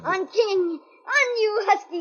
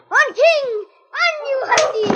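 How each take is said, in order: First: It is said in a louder voice. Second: It is shouted at full voice.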